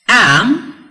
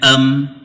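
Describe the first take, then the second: First: The word is said in its full form. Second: The word is said in its reduced form. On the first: "for the strong one" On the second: "for the weak"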